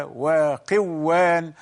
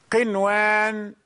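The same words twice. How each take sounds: First: وقوان with the n swallowed into a doubled w; وقوان with a long double w and no clear n; wrongly merged noon. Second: قنوان with a distinct n before the w; clear noon, unmerged. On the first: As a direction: blend the noon into waw, saying وقوان. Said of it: "لو أدغمنا لتغير المعنى". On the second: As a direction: sound the noon in قنوان separately, then the waw. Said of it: "النون ظاهرة". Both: Shown as a demonstration.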